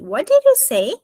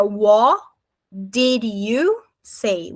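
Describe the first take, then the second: First: Quicker, higher question run together in one go; raised-pitch, flowing linked question; linked natural-speed demo. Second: Very slow, broken into drawn-out chunks; slow-motion pronunciation model; slow linked demo. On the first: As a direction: say it fluently as one joined sound. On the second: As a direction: stretch each joined sound for learners, pausing between chunks. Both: Shown as a demonstration. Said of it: "se juntar como se fosse um som só".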